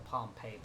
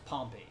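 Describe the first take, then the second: First: The stress is on the second syllable. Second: The stress is on the first syllable. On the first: The speaker calls it wrong. "it kind of frustrates me when I hear people calling it the Pompeii patch" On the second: The speaker calls it right. "the stress shifts from the second syllable to back to the first"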